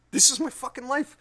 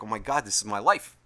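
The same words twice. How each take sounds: First: High, loud, escalated lament; incredulous exasperation. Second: Understated, lower-key lament; mild exasperation. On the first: Owner repeating the realization about his life, incredulous. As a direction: jump up in pitch and volume in disbelief. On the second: Owner sitting there realizing his life, mildly exasperated. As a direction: take it in with a touch of dismay. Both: Retold or imitated.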